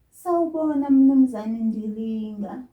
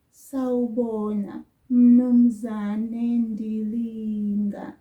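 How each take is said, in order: First: "Mnumzane" said loud with no "u" at the start; loud, clear "Sawubona, Mnumzane Ndilinga" with no leading vowel; greeting without u. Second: "Mnumzane" drawn out very slowly and loud, no "u"; slow it right down so learners hear "Mnumzane"; slow greeting demo. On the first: Teacher greets Mister Ndilinga directly, no u. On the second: Teacher repeats the greeting very slowly for learners. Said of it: "Did you hear that?". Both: Shown as a demonstration.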